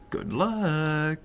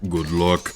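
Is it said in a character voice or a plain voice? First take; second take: plain voice; character voice. First: It is said in the speaker's ordinary voice. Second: It is said in an imitated character's voice. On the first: The speaker calls it wrong. "You didn't say it right" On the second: The speaker calls it right. "you had to say it like the guy in Star Fox"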